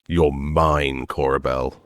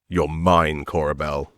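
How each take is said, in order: First: It is said more slowly. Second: It is said at a normal pace.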